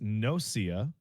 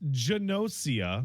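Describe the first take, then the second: First: The starting G is silent. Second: The starting G is pronounced. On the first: The speaker calls it wrong. "G N makes a silent G in English" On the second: The speaker calls it right. "I have been informed that it's not"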